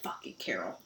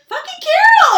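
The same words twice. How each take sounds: First: It sounds annoyed and exasperated. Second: It sounds affectionate and delighted.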